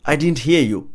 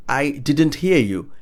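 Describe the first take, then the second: First: Said in the usual way. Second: "I didn't hear you" slow, with words separated; slow model. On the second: Shown as a demonstration. Teacher showing what to say when not hearing, slow and clear. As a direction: spell out "I didn't hear you" slowly by word. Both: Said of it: "you could say".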